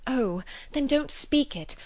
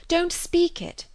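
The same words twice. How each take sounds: First: Urgent, higher, slowed; eager plea. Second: Much higher, louder, slow insistence on "speak"; eager cry. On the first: Emma stopping Knightley's confession, eager. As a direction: rush to stop him, higher and slower. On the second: Emma begging Knightley not to speak, pleading higher. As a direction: beg him urgently, pitch climbing high. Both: Acted. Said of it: "she eagerly cried".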